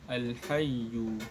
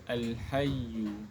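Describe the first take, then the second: No difference in how they are said.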